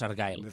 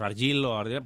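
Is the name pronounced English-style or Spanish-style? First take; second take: English; Spanish. First: The name is pronounced with English sounds. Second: The name is pronounced with Spanish sounds. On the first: This is how it is said in the original version. The speaker calls it right. "pero es Argyle" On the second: This is how Spanish speakers usually say it. The speaker calls it wrong. "Nosotros decimos Argyle"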